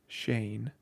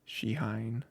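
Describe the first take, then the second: First: The name is said like 'Shane'. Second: The name is said like 'Shihine'. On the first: This is how the speaker habitually says it. The speaker calls it wrong. "It's very weird that I say it out loud" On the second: This is closer to the intended pronunciation. The speaker calls it right. "Shihine probably is closer to how it's pronounced"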